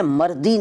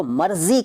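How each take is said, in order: First: मर्दी with d replacing z. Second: Said in the usual way. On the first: Shown as a demonstration. Teacher showing the rejected form, मर्दी with d for z. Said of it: "नहीं कहते". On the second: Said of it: "मर्दी नहीं कहते".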